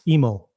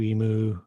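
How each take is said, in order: First: The name ends with an 'oh' vowel. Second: The name ends with an 'oo' vowel. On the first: The speaker calls it right. "How's it supposed to be pronounced?" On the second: The speaker calls it wrong. "they would just butcher it"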